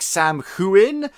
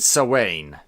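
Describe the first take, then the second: First: An 'm' sound is heard before the 'h'. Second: No 'm' sound; it sounds like 'sow-wain'. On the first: This is how the spelling looks. "It's spelled differently. It's like Sam Huin" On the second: This is how it is said in Scotland. "but we pronounce it Sawain"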